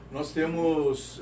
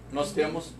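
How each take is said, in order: First: Slow emphasis. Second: Said in the usual way. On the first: Shown as a demonstration.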